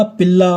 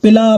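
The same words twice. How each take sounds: First: पिल्ला with a long double ल; lengthened consonant. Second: Said in the usual way. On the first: Shown as a demonstration. Teacher contrasting word lengths, पिल्ला with a held ल्ल. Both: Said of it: "उसी का एक भेद है दीर्घता".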